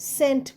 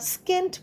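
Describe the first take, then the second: First: No k sound follows the s. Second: A k sound follows the s. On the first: The speaker calls it right. "সেন্ট বলছি" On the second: The speaker calls it wrong. "তো আমরা স্কেন্ট বলছি না"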